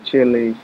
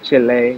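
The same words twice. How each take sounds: First: It is said with an English accent. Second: It is said with a Spanish accent.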